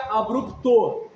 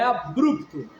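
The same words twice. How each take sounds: First: The stress is on the last syllable. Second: The stress is on the middle syllable. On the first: "Se fosse oxítona, seria abrupto" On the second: "Mas como é paroxítona, é abrupto"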